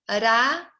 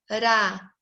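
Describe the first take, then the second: First: The R is a light tongue tap. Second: The R is a light tongue tap.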